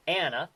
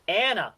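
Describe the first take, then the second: First: Said in the usual way. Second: "Anna" said "æ̃nə", higher and louder, for and the; Yinzer pronunciation. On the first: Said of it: "the female name". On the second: Shown as a demonstration. Host announcing the next Yinzer term, high and loud.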